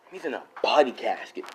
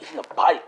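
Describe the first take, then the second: First: Said in the usual way. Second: Talking mid-drink; words through a mouthful of drink; mouth full. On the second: Real, not acted. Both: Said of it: "I was just drinking".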